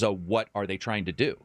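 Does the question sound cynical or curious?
curious. It is said in an eager, curious tone. The listener is excited to find out. "inquisitive idea"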